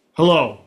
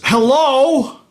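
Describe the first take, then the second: First: Said in the usual way. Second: Hello pitched much higher, a bright chirp; squeaky chirped hello. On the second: Shown as a demonstration. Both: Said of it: "many, many ways of saying hello".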